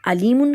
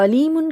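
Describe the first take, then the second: First: علیمن with a plain a to start; alif instead of ain. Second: علیمن with initial ain from the throat; Arabic ain sound. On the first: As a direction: say علیمن as alimun, no throat constriction. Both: Shown as a demonstration. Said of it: "عین کو الف اور الف کو عین".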